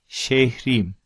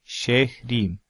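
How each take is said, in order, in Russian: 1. Гласный второго слога выпадает полностью. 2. Гласный второго слога выпадает полностью.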